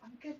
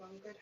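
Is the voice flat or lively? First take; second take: lively; flat. First: It is said in a lively, varied voice. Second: It is said in a flat, monotone voice. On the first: The speaker calls it right. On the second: The speaker calls it wrong.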